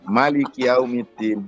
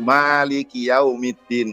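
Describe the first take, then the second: First: The first vowel of Maliki is kept short. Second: The first vowel of Maliki is drawn out long. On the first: "ma-nya pendek" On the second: "kan panjang"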